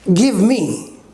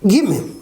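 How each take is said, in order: First: Both words are said fully and separately. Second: The words are blended into one reduced word.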